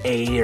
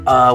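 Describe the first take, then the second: First: The word is said with an English 'ay' vowel. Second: The word is said with a weak 'uh' vowel. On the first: "I've seen English speakers that will say a" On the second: "or uh when they see that"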